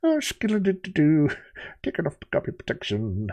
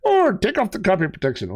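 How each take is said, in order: First: Lightly voiced cartoon sailor; a hint of a gruff cartoon sailor; Popeye voice. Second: High, impish little leprechaun. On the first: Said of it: "He'd be like". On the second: Pretend. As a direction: play a cheeky leprechaun.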